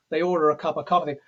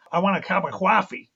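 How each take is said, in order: First: Said in the usual way. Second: "coffee" as a gruff Brooklyn "cawfee"; a thick New York Brooklyn accent. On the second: Retold or imitated. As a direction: do Kojak's Brooklyn accent on "I want a cup of coffee". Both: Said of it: "So it's like this".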